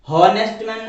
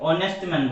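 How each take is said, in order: First: The phrase begins with a clear h sound. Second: The phrase begins without an h sound. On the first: The speaker calls it wrong. "हॉनेस्ट man नहीं इसको बोलेंगे" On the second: The speaker calls it right. "ऑनेस्ट man बोलेंगे"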